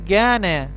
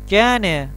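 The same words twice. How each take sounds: First: The r sound is weakened, almost dropped. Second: The r sound is weakened, almost dropped.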